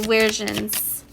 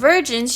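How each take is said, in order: First: The word begins with a W sound. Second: The word begins with a V sound. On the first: "like with a W" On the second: "instead of saying virgins"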